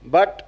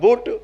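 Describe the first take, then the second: First: The vowel is open, as in 'cup'. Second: The vowel is rounded, as in 'foot'. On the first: The speaker calls it right. "B यू T बट" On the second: The speaker calls it wrong. "अब हो जाएगा बुट"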